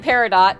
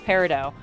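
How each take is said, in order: First: The final T sound is pronounced. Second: The final T sound is left silent. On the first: "that is how I've always read it" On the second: "the T is silent"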